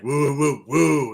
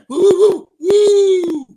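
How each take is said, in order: First: It is hooted in a very deep voice. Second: It is hooted in a normal voice.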